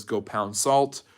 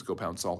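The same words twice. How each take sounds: First: "Go pound salt" said slowly, each word spaced; slow quote. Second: "Go pound salt" said softer, as if checking the phrase; unsure repeat. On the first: Retold or imitated. Teacher quoting Khrushchev's retort to Kennedy, slow and deliberate. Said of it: "Khrushchev says". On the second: Shown as a demonstration. Teacher double-checking the quote to the class, softer and unsure. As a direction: mutter it again, testing the wording. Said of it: "I think I'm saying that right".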